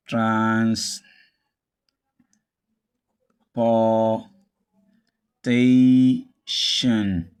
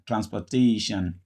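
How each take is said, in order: First: "transportation" very slowly, long gaps between trans, por, ta, tion; syllable by syllable. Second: "Transportation" joined up as trans-puh-TAY-shun; schwa in OR. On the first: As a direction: break "transportation" into drawn-out syllables with a full POR. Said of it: "stress the penultimate syllable". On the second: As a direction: stress TA in "Transportation" and weaken OR to a schwa. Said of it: "the O R becomes a schwa". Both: Shown as a demonstration.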